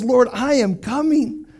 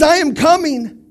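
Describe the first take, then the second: First: A calm, decided vow, drawn out; slow resolve. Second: Higher, louder, firm declaration; loud resolve. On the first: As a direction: say each word slowly and firmly. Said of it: "David says". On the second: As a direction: call it out with conviction. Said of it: "He says". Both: Retold or imitated.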